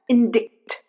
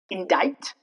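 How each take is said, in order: First: The C is sounded as a K. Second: The C is silent. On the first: The speaker calls it wrong. "not indict" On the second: The speaker calls it right. "the C remains silent"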